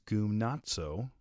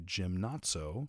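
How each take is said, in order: First: The word is given a Greek-style pronunciation. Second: The word is pronounced close to English gymnasium. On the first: "the Greek word is gymnazo" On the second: "if I pronounce that slightly differently, I would say gymnazo, which is gymnasium"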